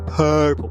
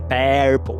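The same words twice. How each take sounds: First: The first vowel is a central 'er' sound. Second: The first vowel is replaced by another full vowel. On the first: The speaker calls it right. "é purple" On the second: The speaker calls it wrong. "nem purple"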